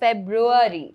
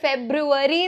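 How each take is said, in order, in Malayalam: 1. മധ്യഭാഗത്ത് 'ru-va' ശബ്ദമില്ല. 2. മധ്യഭാഗത്ത് പൂർണ്ണമായ 'ru-va' ശബ്ദമുണ്ട്. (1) "കറക്റ്റ് പ്രൊനൗൺസിയേഷൻ ഇസ് ഫെബ്രുവരി" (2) "നമ്മൾ ഫെബ്രുവരി എന്ന് പറയാറുണ്ട്"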